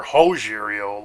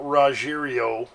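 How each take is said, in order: First: "Rogerio" starting with a breathed H, Ho-zheerio. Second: "Rogerio" starting with an English R. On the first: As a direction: open "Rogerio" on H instead of R. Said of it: "Goldberg likes to say". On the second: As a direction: say "Rogerio" as Ra-zheerio, R sounded. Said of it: "or Rogerio". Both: Shown as a demonstration.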